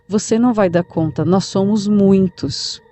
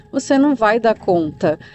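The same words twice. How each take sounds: First: Hint of a menacing spirit speaking through grandma, drawn out; possessed many-voiced. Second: Said in the usual way. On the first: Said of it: "com uma voz mais masculina e meio que multiplicada". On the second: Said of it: "a avó começou a responder com uma voz diferente".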